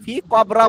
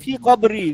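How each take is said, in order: First: The last word ends with an 'a' vowel. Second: The last word ends with an 'i' vowel. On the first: The speaker calls it wrong. "ফি কবরা বলতে পারবেন না" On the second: The speaker calls it right. "বলতে হবে ফি কবরি"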